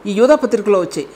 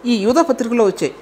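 The two takes are said the same way.

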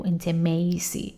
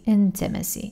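First: "intimacy" said wrongly as "in-te-mei-si", with a long ei; the wrong way: "intimacy" with "mei" in the middle; wrong pronunciation. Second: "Intimacy." said as "in-te-me-si", short vowels and falling tune; right pronunciation. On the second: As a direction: correct it: "Intimacy." as "in-te-me-si". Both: Shown as a demonstration. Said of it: "نگو intimacy".

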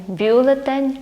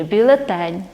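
First: Бюлетень stressed on "бю", BYU-le-ten; first-syllable stress. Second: Бюлетень stressed on "тень", byu-le-TEN; last-syllable stress. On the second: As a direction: hit the final syllable of бюлетень. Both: Shown as a demonstration. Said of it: "є ці наголоси".

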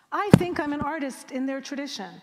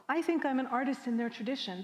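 First: Loud, higher, hammering "I think I'm an artist"; emphatic restatement. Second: Said in the usual way. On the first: Retold or imitated. Poet to audience on unseen belonging, emphatic restatement. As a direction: insist on "I think I'm an artist in their tradition", much louder. Repeats own belief, insisting on it.

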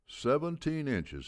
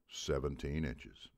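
First: Much higher, louder and slow; booming confirmation. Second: Said in the usual way. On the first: A narrator's reading. Old coach confirming to the whole hall, booming. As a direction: let it boom off the walls. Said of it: "his voice billowing off the walls". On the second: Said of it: "coaches answer the question".

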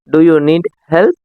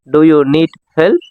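First: Said in the usual way. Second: "Do you need help?" said slowly, each word spaced out; slow it down so learners can copy; slower repeat. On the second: Shown as a demonstration. Teacher repeats slowly for learners to copy. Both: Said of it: "நீங்களும் என்னோட சேர்ந்து சொல்லிட்டு வாங்க".

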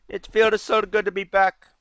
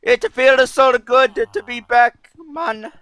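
First: Higher-pitched mock Arabian accent; put-on Arabian accent at moderate volume; attempted Arabian accent. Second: High, loud, hammed-up Arabian accent; loud comic Arabian accent; attempted Arabian accent. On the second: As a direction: put on an exaggerated Arabian accent, pitched way up. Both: Shown as a demonstration. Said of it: "let me try that again".

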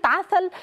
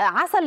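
First: Said in the usual way. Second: "عسل" lisped, the S turned into th. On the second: Retold or imitated. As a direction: say "عسل" with a child's th for S. (لثغة السين ثاء في "عسل") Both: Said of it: "عسل ينطقها عسل".

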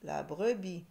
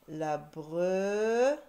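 First: Said in the usual way. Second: "brebis" drawn out, loud, broken before "bis"; very slow, louder syllable split of "brebis". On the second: Shown as a demonstration. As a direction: stretch "bre" rising, pause, then "bis". Teacher sounding out syllables.

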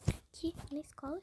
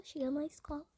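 First: Breathy whispered aside; a soft unvoiced whisper. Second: Said in the usual way. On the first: Real, not acted. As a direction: whisper it to the viewers.

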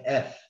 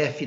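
First: "F" as one syllable ending on the consonant; English letter name "F", just "eff". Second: "F" said "éfi", with a vowel at the end; Portuguese "efe". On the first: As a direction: stop "F" on the f, no final vowel. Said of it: "Não é F". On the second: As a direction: add a final I sound to "F". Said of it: "F é em português". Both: Shown as a demonstration.

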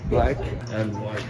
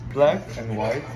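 Both takes have the same delivery.

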